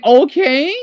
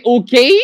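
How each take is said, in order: First: "okay" said higher, rising like English; English "okay" for comparison. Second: "okay" with a rising tune; Portuguese "okay" rising. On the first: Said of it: "like you're saying". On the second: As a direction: say "okay" lifting at the end like a question. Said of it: "you say". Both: Shown as a demonstration.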